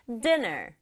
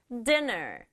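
No difference in how they are said.

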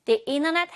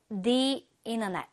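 First: "the internet" with "the" said as a long "thee"; long ee vowel in "the" of "the internet". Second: "the internet" with "the" said as "thuh"; "the" with a schwa in "the internet"; weak "the". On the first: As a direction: stretch "the" to "thee" before "internet". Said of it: "이렇게 읽을 거야". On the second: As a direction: say "thuh" before "internet", the wrong vowel. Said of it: "모음 발음으로 인터넷 시작을 하기". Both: Shown as a demonstration.

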